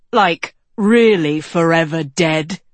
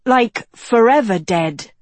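First: Louder, unraised pitch, stressing the certainty; young king agreeing. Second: Put-on higher, louder girl's voice; girl agreeing. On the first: Young king seconding the girl, emphatic. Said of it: "said Tedros". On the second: Girl agreeing with the young king, emphatic. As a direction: back him up in a higher voice. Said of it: "Agatha agreed". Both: A narrator's reading.

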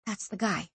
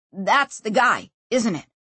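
First: Much softer, to herself; inner thought. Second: Said in the usual way. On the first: A narrator's reading. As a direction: think it, barely voiced. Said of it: "she thought".

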